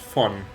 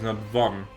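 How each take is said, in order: First: It starts with a German f sound. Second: It starts with an English v sound. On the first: "Which is actually the German way to say it"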